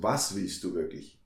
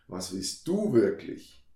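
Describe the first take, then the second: First: The stress is on was. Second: The stress is on du.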